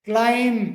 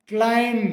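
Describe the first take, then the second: Both takes have the same delivery.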